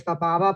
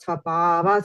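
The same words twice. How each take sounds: First: The marked vowel is short. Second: The marked vowel is drawn out long. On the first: The speaker calls it wrong. "you would actually not just say svabhava" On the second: The speaker calls it right. "So you elongate the sound"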